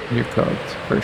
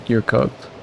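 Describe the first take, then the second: First: Unvoiced, soft repeat of You're cooked; whispered echo. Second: Said in the usual way. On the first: Real, not acted. Echoing his verdict on the coworker in a whisper.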